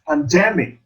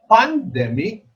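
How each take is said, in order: First: "pandemic" as pan-DEM-ic; correct second-syllable stress. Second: "pandemic" as PAN-dem-ic; wrong stress demo. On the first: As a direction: put the accent back on DEM in "pandemic". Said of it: "the second syllable is accented". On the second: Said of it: "We don't say". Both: Shown as a demonstration.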